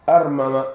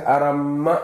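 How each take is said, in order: First: "Armama" with the two m's pulled apart; separated letters. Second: "arama" with the m held long, aram-ma; doubled m. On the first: Teacher undoing the merger, "Armama" with separate m's. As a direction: split the double m: "Armama", ar-ma-ma. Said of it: "Faki baa lagu sameeyey, armama". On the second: Teacher explaining the merged form, "arama" with doubled m. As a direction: lean on a long double m in "arama", ending raised. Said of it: "wuxuu ka wadaa arama ay ahayd". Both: Shown as a demonstration.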